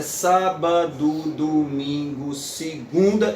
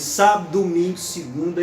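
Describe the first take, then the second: First: Sábado with all three syllables, domingo drawn out slowly; full syllables. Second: Sábado swallowed to sab-do, domingo and segunda linked; elided syllable. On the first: Lecturer showing the verse landing on the eighth syllable, full syllables. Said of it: "eita, tá na oitava". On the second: Lecturer reciting the poet's line with the poetic elision. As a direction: clip the middle syllable of Sábado. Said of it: "Ele engole uma sílaba". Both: Shown as a demonstration.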